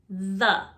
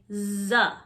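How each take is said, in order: First: The first sound is a th, tongue out. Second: The first sound is hard, without the tongue out. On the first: The speaker calls it right. "Make sure your tongue is sticking out" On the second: The speaker calls it wrong. "Most students will say the. Nope"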